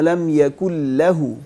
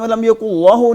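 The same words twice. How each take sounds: First: The L in lahu sounds thin and light. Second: The L in lahu sounds thick and heavy. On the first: The speaker calls it right. "इसको वलम यकुल लहू" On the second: The speaker calls it wrong. "अब इसमें वलम यकुल लहू नहीं पढ़ सकते"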